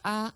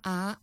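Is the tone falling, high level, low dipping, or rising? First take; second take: high level; rising. First: The pitch stays high and level. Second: The pitch rises from middle to high.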